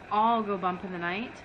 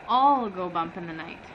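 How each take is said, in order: Both takes have the same delivery.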